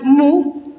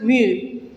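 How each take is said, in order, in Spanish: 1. La vocal es un sonido 'oo' simple. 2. La vocal es una 'ee' redondeada, como la u francesa. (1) "otros lo pronuncian mu" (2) "el correcto es mu. Esa es la pronunciación real"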